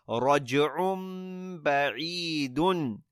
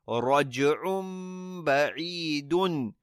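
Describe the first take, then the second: The two takes are said the same way.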